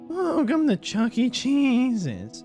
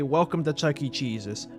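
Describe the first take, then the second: First: The voice cracks partway through. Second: The voice stays steady throughout.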